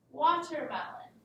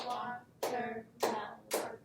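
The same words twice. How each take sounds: First: Said in the usual way. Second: Watermelon slowed, wa-ter-mel-on, each beat apart; clapped out syllables. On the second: Shown as a demonstration. Teacher claps out Watermelon syllable by syllable for the class. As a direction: clap out Watermelon slowly. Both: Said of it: "These words are easily clapped out".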